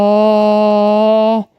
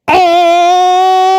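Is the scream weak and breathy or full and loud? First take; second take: weak breathy; full loud. First: It is a weak, breathy fake scream. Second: It is a full, loud real scream.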